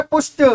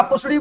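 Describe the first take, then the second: First: "पुष्ट" as one syllable, push with a t at the end; correct pronunciation. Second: "पुसड़ी" with extra syllables, as a student misreads pushed; wrong pronunciation. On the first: Shown as a demonstration. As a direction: say "पुष्ट" short, ending in t. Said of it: "ये बोलता है पुष्ट". (सही उच्चारण "पुष्ट", अंत में ट) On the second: Retold or imitated. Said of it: "पुसड़ी बोलोगे आप". (गलत उच्चारण "पुसड़ी" की नकल)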